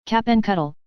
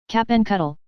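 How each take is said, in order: First: Stern, higher-pitched call, repeated firmly; determined. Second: Sharp, stern call, pitched higher; severe. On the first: Wife repeats the captain's name in a determined voice. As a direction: repeat his name, unbending. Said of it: "in the same determined manner". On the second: Wife calls the captain's name with severe sternness. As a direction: snap his name out sternly. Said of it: "with severe reaction in her voice and manner". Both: A narrator's reading.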